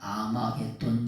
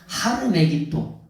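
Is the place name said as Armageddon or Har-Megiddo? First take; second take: Armageddon; Har-Megiddo. First: The name is said as Armageddon. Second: The name is said as Har-Megiddo. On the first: The speaker calls it wrong. "우리가 아마겟돈이라고 그러지만 전혀 근거 없는 발음" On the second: The speaker calls it right. "하르메기또라고 하는 게 뭐냐?"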